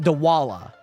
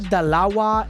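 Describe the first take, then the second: First: The W sound comes before the L sound. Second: The L sound comes before the W sound. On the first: The speaker calls it wrong. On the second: The speaker calls it right.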